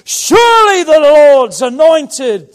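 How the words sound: It is exclaimed with excitement.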